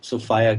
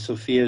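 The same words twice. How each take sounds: First: Sophia is said in an uncommon, distinct way. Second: Sophia is said like the common woman's name. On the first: It names the Greek idea of wisdom. "Sophia kind of distinguishes it as being a little different" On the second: It is an ordinary woman's name. "Sophia is generally what you call a woman's name"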